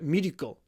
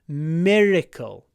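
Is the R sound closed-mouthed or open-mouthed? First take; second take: closed-mouthed; open-mouthed. First: The mouth closes while saying the R. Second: The mouth stays open during the R. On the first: The speaker calls it wrong. "If you do" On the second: The speaker calls it right.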